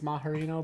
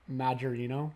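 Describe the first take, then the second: First: No J sound follows 'Ma'. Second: A clear J sound follows 'Ma'. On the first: "unless the J is silent" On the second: "I'm guessing it's probably Majorino"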